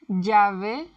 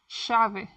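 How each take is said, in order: First: The ll sounds like the English y. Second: The ll sounds like English sh.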